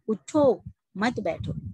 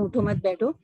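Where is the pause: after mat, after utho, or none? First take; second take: after utho; none. First: There is a pause after उठो. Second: It is said quickly with no pause.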